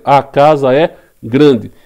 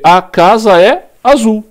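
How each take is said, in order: First: Slow, clear "A casa é grande"; example sentence. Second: Louder and higher, slow example: "A casa é azul"; example sentence. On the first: Teacher dictating the new example sentence, slow and clear. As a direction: spell out "A casa é grande" word by word. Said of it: "E aí a frase passa a ser". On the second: Teacher dictating an example sentence to the class, slow and loud. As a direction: read "A casa é azul" out slowly, like writing on the board. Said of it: "Posso escrever". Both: Shown as a demonstration.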